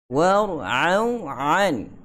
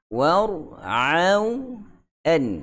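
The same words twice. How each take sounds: First: The consonant before 'an' is a throaty ain. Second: The consonant before 'an' is a light glottal stop. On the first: The speaker calls it wrong. "jangan ... sebab sebelah tu dah ain, hamzah pun dia ain kan" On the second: The speaker calls it right.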